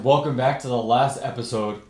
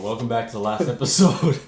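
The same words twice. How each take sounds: First: It is said in an ordinary speaking voice. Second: It is said in a put-on deep voice.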